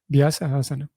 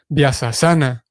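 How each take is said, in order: First: The two words are kept separate. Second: The two words are merged into one. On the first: The speaker calls it right. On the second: The speaker calls it wrong.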